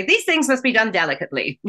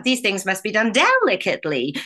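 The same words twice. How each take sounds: First: Said quickly and lightly, just thrown away; quick throwaway. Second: Line as the film witch says it; the Wicked Witch's famous line. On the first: Shown as a demonstration. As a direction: rush the line, toss it off. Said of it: "You can't just say". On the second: Retold or imitated. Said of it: "one springs".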